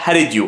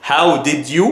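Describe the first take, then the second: First: "how did you" run together as "hari-dyu"; linked American pronunciation. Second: "How did you" with each word fully sounded; three separate words. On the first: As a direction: flap the first D, linking "how did you". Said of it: "هتقولها how did you". (عبارة "how did you" موصولة باللهجة الأمريكية) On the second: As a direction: keep both Ds clear in "How did you". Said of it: "تلات كلمات". (عبارة "How did you" بثلاث كلمات منفصلة واضحة) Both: Shown as a demonstration.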